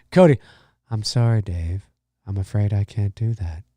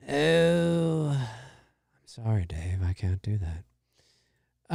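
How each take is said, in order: First: Deadpan machine voice refusing; HAL 9000 impression. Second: Low, very slow, calm computer voice; slow, eerie machine refusal; HAL 9000 impression. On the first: Streamer quoting the movie computer, low and calm. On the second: Streamer repeats the movie line, low and slow.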